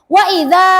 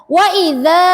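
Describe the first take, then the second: No difference in how they are said.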